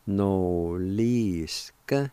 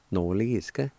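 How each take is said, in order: First: Noliska very drawn out; slow pronunciation. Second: Said in the usual way. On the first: Shown as a demonstration. Teacher showing how noliska goes, slowly and drawn out. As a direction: stretch every vowel of noliska. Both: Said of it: "it's pronounced like this".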